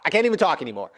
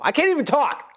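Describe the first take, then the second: First: Said in the usual way. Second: Higher, strained, breaking voice; real emotion cracking "I can't even talk". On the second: Real, not acted. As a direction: squeeze it out as if about to cry.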